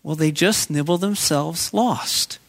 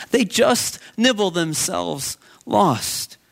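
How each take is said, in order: First: Slow, drawn-out folksy answer; farmer's answer. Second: "They" stressed, each word very slow; slow emphatic repeat. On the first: Retold or imitated. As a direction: let the farmer's words land slowly. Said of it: "the farmer answered". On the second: Shown as a demonstration. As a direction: lean on "They" and stretch it out.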